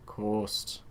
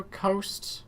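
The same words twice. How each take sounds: First: Put-on "Coast" drawn out in a Scottish accent, low and soft. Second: Said in the usual way. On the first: Recalling the presenter of the show Coast, imitated Scottish accent. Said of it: "the Scottish person who did the show Coast".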